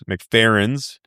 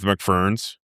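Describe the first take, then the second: First: The name is said in full with three syllables. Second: The name is squeezed into two syllables. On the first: The speaker calls it right. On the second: The speaker calls it wrong.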